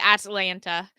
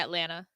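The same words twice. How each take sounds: First: The middle T sound is clearly pronounced. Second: The middle T sound is dropped. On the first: "I don't say Atlanta" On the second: "I don't pronounce the T"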